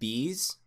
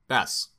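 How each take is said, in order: First: The vowel is long, like in 'bees'. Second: The vowel is short, like in 'mess'. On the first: The speaker calls it wrong. "I read it as Bees, like B apostrophe S" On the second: The speaker calls it right. "but Bess"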